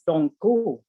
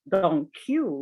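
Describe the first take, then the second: First: The Q is said with a Spanish sound. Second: The Q is said like English 'cue'. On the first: The speaker calls it right. "the one that I pronounce" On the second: The speaker calls it wrong. "You say Don Q, like thank you"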